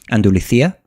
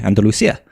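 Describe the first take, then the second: First: The middle consonant is a th sound. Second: The middle consonant is an s sound. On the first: Some people from the region say it this way. "pronounce like a C I as a th" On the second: Other people from the region say it this way. "some that don't and say Andalusia"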